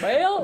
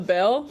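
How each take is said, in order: First: The vowel is drawn out, sounding like bail. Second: The word is said with a short plain vowel.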